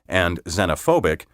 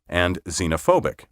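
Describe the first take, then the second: No difference in how they are said.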